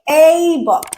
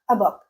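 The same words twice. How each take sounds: First: The article is a full, stressed vowel. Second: The article is a weak, unstressed schwa. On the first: "by overemphasizing that a and making it a stressed syllable" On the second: "I'm turning it into the schwa sound"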